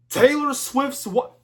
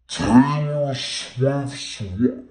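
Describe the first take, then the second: First: High, loud shocked outburst; shocked question. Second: Very slow, loud, distorted repeat; drawn-out mock shock. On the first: Acted. Reviewer reacting to [name]'s mention, high loud shock. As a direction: blurt it out in high-pitched disbelief. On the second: Reviewer repeating the [name] question, loud slow-motion disbelief. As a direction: stretch every word out in slow motion, loudly.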